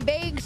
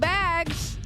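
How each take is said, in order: First: The word has a Wisconsin regional pronunciation. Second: The word has a general, non-regional pronunciation. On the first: "They say bags" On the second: "instead of bags"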